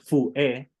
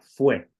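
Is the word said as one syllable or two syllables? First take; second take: two; one. First: The word is split into two syllables. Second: The word is said as one syllable. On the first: The speaker calls it wrong. "no decimos fue, como dos sílabas" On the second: The speaker calls it right. "decimos una sola"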